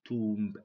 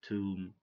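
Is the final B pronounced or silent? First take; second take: pronounced; silent. First: The final B is pronounced. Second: The final B is silent. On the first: The speaker calls it wrong. "So don't say" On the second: The speaker calls it right.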